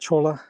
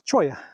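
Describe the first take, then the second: First: The double L sounds like an English L. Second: The double L sounds like an English Y. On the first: The speaker calls it wrong. "I think I was pronouncing it cholla" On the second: The speaker calls it right. "but it's cholla"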